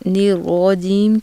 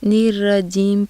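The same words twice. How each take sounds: First: The r sounds heavy and full. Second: The r sounds thin and light. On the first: The speaker calls it right. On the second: The speaker calls it wrong.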